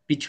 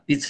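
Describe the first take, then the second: First: The ch sound is made further back. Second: The ch sound is made further forward. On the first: The speaker calls it right. "পিছনে চলে যাবে ওটা" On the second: The speaker calls it wrong. "পিছ নয়"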